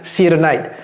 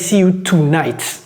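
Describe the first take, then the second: First: The phrase is short, with the sounds linked. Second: The phrase is drawn out, each word separate. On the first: The speaker calls it right. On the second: The speaker calls it wrong.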